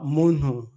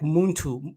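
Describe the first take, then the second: First: The 'ntu' ending is softened, without emphasis. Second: The 'ntu' ending is said with strong emphasis. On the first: It does not stand out as Banyamulenge. "Rwandans will pronounce it differently" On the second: It marks the speaker as Banyamulenge. "with an emphasis on the last uh, three letters and T U"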